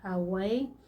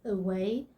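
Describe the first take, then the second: First: The first vowel is an open 'ah' sound. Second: The first vowel is a short 'uh' sound. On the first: The speaker calls it wrong. "the A in this word doesn't say ah, so you don't say away" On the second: The speaker calls it right. "It's not ah, but uh"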